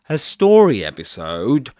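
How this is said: The main stress falls on the word story. The speaker calls it right. "compound nouns in English are early stressed"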